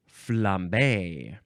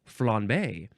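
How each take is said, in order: First: The middle consonant is a clear M sound. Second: The middle consonant is a subtle nasal N.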